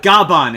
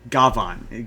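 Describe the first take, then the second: First: The middle consonant is a b sound. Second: The middle consonant is a v sound.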